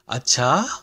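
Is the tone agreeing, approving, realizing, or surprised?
surprised. It is said in a surprised, questioning tone. It means oh really? "oh really?"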